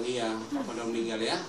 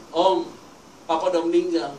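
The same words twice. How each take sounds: First: Said in the usual way. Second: Louder, lightly voiced grieving daughter; imitated tearful daughter. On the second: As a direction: break the news as a crying daughter, mildly acted. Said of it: "Anak perempuannya nangis ketemu saya". (menirukan anak yang menangis)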